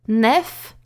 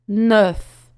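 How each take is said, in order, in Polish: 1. Samogłoska to zwykłe e, wargi rozciągnięte. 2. Samogłoska to e wymawiane z zaokrąglonymi wargami. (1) "To nie jest nef" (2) "usta otworzyć jak do o i powiedzieć e"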